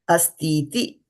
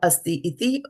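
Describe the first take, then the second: First: The two words merge with one long vowel. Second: The two words are said apart, two short vowels. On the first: The speaker calls it right. "soft I's become a hard I. So when we pronounce this, we will say astiti" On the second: The speaker calls it wrong. "Not asti iti, anything like that. We don't break it"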